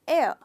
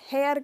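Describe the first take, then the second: First: The word begins straight with a vowel sound. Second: The word begins with a clear h sound. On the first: The speaker calls it right. "H silent है इसमें" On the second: The speaker calls it wrong. "इसे भी लोग हेयर कह देते हैं"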